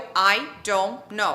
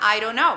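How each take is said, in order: First: The words are said separately, each one clear. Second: The words are run together into one unit. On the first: "Provavelmente você respondeu I don't know" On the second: "Quando eu falo junto, vai ficar"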